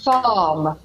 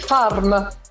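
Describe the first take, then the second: First: The R is silent and the vowel is lengthened. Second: The R is clearly sounded after the vowel. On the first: The speaker calls it right. "quel R serve per prolungare la vocale che la precede, la A. Perciò come se fossero due A" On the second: The speaker calls it wrong. "Un italiano vuole dire farm, ma no"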